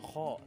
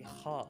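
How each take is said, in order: First: The vowel sounds like 'o'. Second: The vowel sounds like 'a'. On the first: The speaker calls it wrong. "bukan o, bukan kho" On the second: The speaker calls it right. "tapi kha"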